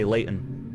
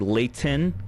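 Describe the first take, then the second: First: The T sound is dropped, Utah style. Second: The T sound is clearly pronounced.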